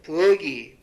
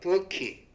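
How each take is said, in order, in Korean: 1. 마지막 모음 앞의 자음은 예사소리입니다. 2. 마지막 모음 앞의 자음은 거센소리입니다. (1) "이것은 연음을 따르지 않아서 생긴 잘못된 발음이다" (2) "하는 거로 발음하는 것이 적절하다"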